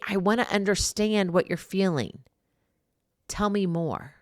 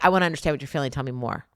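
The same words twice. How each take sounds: First: It is said in a warm, gentle tone. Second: It is said in a harsh, impatient tone. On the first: The listener is invited to open up. The speaker calls it right. "Or maybe" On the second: The listener feels judged and pushed away. The speaker calls it wrong. "But you can't say"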